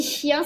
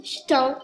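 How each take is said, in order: First: Said in the usual way. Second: "ch'tin", the ch'ti way of saying chien; ch'ti pronunciation. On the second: Shown as a demonstration. Showing viewers the ch'ti word "ch'tin" for dog. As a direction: say "ch'tin" with a ch sound and a nasal tin ending instead of chien. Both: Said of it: "ça se dit comme ça en ch'ti".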